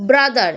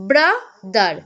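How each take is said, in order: First: Said in the usual way. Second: brother split as bra, pause, দার; two-part syllable break. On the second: Shown as a demonstration. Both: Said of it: "দুইবারে উচ্চারিত হচ্ছে".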